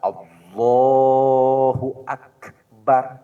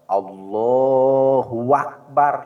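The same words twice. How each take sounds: First: No extra sound is added anywhere. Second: A w sound comes between Allah and Akbar. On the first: The speaker calls it right. "itu yang benar" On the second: The speaker calls it wrong. "Atau antara Allah dan Akbar di tengahnya ada wawu. Lepat"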